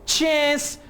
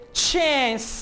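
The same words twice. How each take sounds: First: It is said in an American English accent. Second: The same.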